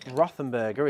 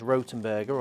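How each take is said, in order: First: The name is said with an English 'th' sound. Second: The name is said with a plain 't' sound.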